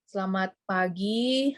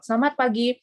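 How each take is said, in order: First: It is spoken very slowly. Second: It is spoken at a moderate pace. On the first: The speaker calls it wrong. "itu orang keburu tidur ya" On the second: The speaker calls it right. "Jadi itu harus dikontrol"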